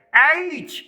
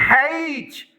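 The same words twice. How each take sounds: First: ایچ starting straight on the vowel, no h; correct pronunciation. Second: ہیچ with an audible h at the start; common mispronunciation. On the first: Teacher giving learners the right name of the letter, correct pronunciation. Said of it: "یہ تلفظ جو ہے یہ بالکل درست ہے". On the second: Teacher showing learners how people commonly mispronounce the letter, wrong pronunciation. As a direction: say ہیچ with a wrongly added opening h. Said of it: "اس کا تلفظ کچھ ایسے کرتے ہیں". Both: Shown as a demonstration.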